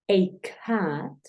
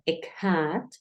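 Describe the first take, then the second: First: The article sounds like a full 'ay'. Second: The article sounds like an open 'ah'. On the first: "el sonido abierto de la a, o sea, ey" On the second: "Puedes escucharlo a"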